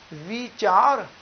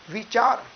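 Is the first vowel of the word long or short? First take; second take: long; short. First: The first vowel is drawn out long. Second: The first vowel is short and light. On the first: "ਬਿਹਾਰੀ ਦੇ ਨਾਲ ਉਚਾਰਨ ਕਰਾਂਗੇ" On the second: "ਵਾਵੇਂ ਨੂੰ ਸਿਹਾਰੀ"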